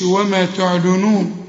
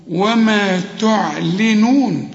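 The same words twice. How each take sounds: First: تعلنون with a thick ل; wrong take. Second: وما تعلنون slow, light ل; correct take. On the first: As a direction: say وما تعلنون with a heavy ل. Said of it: "ما نقولش وما تعلنون". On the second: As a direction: recite وما تعلنون slowly, ل kept light. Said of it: "اللام هنا مكسورة". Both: Shown as a demonstration.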